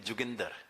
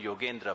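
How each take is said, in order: First: The name starts with j and ends in -inder. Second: The name starts with a y sound. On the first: "the Punjabi pronunciation of my name is Juginder" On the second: "like Bengalis do not call me Yogendra"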